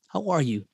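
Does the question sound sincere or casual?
sincere. It is asked sincerely, with real interest.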